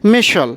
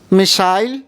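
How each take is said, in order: First: It is said in an American accent. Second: It is said in a British accent. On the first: "American में मिशल" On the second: "British में मिसाइल"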